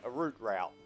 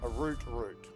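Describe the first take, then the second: First: Route is said in an American way. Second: Route is said in a non-American, British way.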